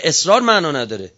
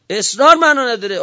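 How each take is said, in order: First: Said in the usual way. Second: معنا hit higher and louder, falling at the end; emphatic repeat. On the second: Real, not acted. (تأکید روی معنا با صدای بلندتر)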